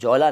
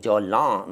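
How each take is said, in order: First: The final vowel is plain, without nasal sound. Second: The final vowel is nasalized. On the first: The speaker calls it wrong. "जौला नहीं" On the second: The speaker calls it right. "Nasal sound"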